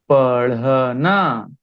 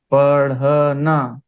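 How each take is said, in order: First: पढ़ना drawn out slowly with the flapped ढ़; slow clear पढ़ना. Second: पढ़ना stretched slowly, flapped ढ़ stressed; slow clear पढ़ना. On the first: Teacher modelling पढ़ना slowly for students. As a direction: sound out पढ़ना slowly for the class. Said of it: "तो यहां देखिए". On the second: Teacher repeating पढ़ना slowly for students. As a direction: model पढ़ना syllable by syllable. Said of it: "ये वाला होगा". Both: Shown as a demonstration.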